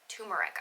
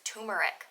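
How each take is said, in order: First: The first R sound is left out. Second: The first R sound is left out.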